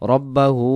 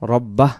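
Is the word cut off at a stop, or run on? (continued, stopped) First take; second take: continued; stopped. First: The word ends with a full -hu sound. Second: The word ends short on an h sound. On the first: The reciter carries on without pausing. "যদি দমটা ছেড়ে না দেই" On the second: The reciter pauses here. "এখানে তোমরা ছেড়ে দিলে আমরা রব্বাহ বলবো"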